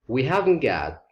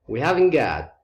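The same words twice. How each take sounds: Both takes have the same delivery.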